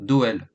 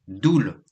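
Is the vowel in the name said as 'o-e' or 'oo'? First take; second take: o-e; oo. First: The vowel is an 'o-e' sound. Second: The vowel is a single 'oo' sound. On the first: This is how the French say the name. The speaker calls it wrong. "et non Doel. En France, on dit Doel" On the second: This is how Belgians say the name. The speaker calls it right. "le son O E en Belgique se dit OU"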